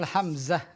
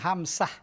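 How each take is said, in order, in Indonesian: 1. Konsonan tengahnya bunyi z. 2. Konsonan tengahnya bunyi s. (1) "Ya betul Hamzah" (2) "ada yang bilang Hamsah, ada khata ... Bukan sin"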